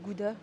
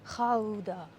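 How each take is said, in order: First: The word is pronounced the foreign way. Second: The word is pronounced the Dutch way. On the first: This is how it is said in other countries. "dans les autres pays, tout le monde dit Gouda" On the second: This is how it is said in the Netherlands. "en néerlandais, ça se prononce pas du tout Gouda. Ça se prononce Ra- Raouda"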